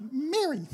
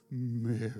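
First: Mary called high and bright. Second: Mary said low and soft; low tender Mary. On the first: Jesus calling Mary's name at the tomb, high and bright. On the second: Jesus calling Mary's name at the tomb, low and soft. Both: Shown as a demonstration. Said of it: "how did he say Mary".

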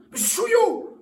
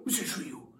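First: Calling out. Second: Whispering. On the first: Calling the guest aloud. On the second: Calling him, then whispering. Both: Acted.

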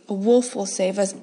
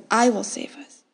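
First: Hushed, with "wolf" lifted as the key word; stress on wolf. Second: Hushed, with "I" pressed and falling firmly; stress on I. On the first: Sister promising her brother rescue, stressing "wolf". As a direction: lean on "wolf" to give him hope. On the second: Sister vowing to her brother, stressing "I". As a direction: put the weight on "I" as a vow. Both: A narrator's reading. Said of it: "when I whispered to him".

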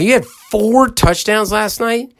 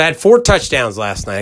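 First: High, slow amazed repeat; incredulous echo. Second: Said in the usual way. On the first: Retold or imitated. Host echoing the son's boast back to him, amazed. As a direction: stretch it out in disbelief. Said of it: "I go". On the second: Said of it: "He said".

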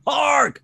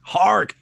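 First: A second call pitched even higher, falling at the end. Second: Put-on a sudden call pitched far higher, like an old herald. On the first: Acted. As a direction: cry it out more urgently. Calling out again, even higher. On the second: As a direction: cry out to stop everyone. Calling out in a character voice.

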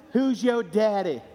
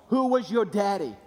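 First: "Who's your daddy?" drawn out slow, leaning on "Who's"; slow emphatic question. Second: Said in the usual way. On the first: Shown as a demonstration. Preacher pressing the congregation on "Who's". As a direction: land "Who's" hard and stretch the whole line.

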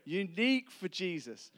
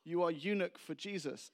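First: "Unique" with the stress on the second syllable, NEEK; corrected unique. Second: Put-on "unique" said as "eunuch", stress up front, in a Spanish accent; mispronounced unique. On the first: Shown as a demonstration. Preacher reveals what the man meant, "Unique" pronounced clearly. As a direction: hit "Unique" high and loud on its last syllable. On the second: Foreign man means unique, mispronounces it as "eunuch". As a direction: say "eunuch" where "unique" is meant, higher pitched. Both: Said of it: "I realize he means unique".

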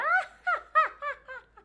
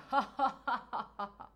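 First: Loud, very high cackling laugh; deliberate shrieky high guffaw; high-pitched demonstration laugh. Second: Deliberate guffaw in the low register; belly "ho ho ho" done as an exercise; low demonstration laugh. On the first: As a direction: let out a big "ah-ha-ha" way up high as an exercise. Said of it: "dá aquela gargalhada mais aguda". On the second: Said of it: "dá a gargalhada pro grave". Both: Shown as a demonstration.

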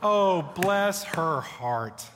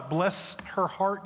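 First: A very slow, syrupy Southern "Oh, bless her heart"; fake-sweet Southern "Oh, bless her heart"; Southern sweetness. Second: A slow, drawn-out Southern "bless her heart"; Southern phrase. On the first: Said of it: "You know what I'm talking about?". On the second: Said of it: "We have a phrase". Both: Shown as a demonstration.

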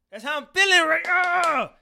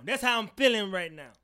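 First: Shouted, higher and louder; hyped shout. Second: Said in the usual way. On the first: Shown as a demonstration. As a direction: yell it out hyped. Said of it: "repeated hyped". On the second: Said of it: "repeated louder".

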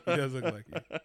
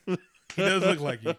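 First: Said in the usual way. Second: Words squeezed out through laughter, higher and louder; laughing. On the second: Real, not acted. Teasing his co-host about the baby photo, laughing. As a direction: crack up while saying it.

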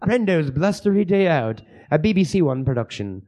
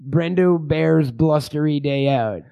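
First: Mock BBC title announcement in British; slaughtered British accent. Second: Slow, drawn-out film title; title announcement. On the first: Host announces the film as a BBC production, mock British. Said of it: "me slaughtering a fucking, uh, a British accent". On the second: Pretend. Host announces a made-up porn title, slow and deliberate. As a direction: stretch out the title slowly.

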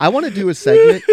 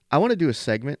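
First: High, loud, bursting announcement; excited announcement. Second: Said in the usual way. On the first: Real, not acted. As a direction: announce it with a big jump up. Announcing a new segment.

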